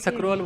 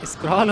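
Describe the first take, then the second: First: A short vowel is inserted after the s. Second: The word starts with a tight 'skr' cluster. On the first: "Punjabi लोग इसको सक्रोल बोल देते हैं" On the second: "स्क्रॉल होता है"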